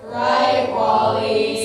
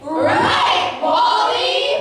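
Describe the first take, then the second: First: It is said flatly, without conviction. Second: It is said loudly, with conviction.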